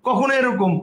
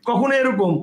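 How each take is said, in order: Both takes have the same delivery.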